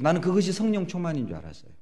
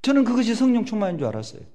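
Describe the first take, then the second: First: Said in the usual way. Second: Louder, higher emphatic refrain. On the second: Real, not acted.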